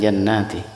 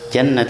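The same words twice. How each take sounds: First: The n sound is held long. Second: The n sound is held short. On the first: It refers to several paradises. The speaker calls it wrong. "bukan jannati" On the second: It refers to one paradise. The speaker calls it right. "Nunnya enggak panjang"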